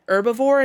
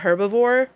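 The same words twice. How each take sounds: First: The word starts without an h sound. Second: The word starts with a strong h sound. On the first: This is the speaker's usual way of saying it. The speaker calls it right. "we say herbivore" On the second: This is not the speaker's usual way of saying it. The speaker calls it wrong. "the strong H does not sound right"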